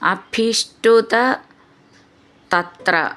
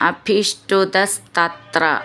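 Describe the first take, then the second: First: The words are said apart as separate words. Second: The words run together as one joined word.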